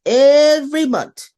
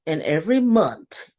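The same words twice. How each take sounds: First: "every month" punched much louder, higher and slow; emphatic repeat. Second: Said in the usual way. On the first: Retold or imitated. Exasperated about the monthly report, "every month" hammered loud and slow. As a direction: lean hard on "every month" to show the frustration. Repeats phrase with more weight.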